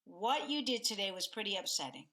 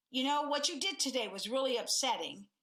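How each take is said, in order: First: Calmer tone. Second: Charged tone. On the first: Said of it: "as compared to". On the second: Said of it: "both are tone as compared to". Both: Shown as a demonstration.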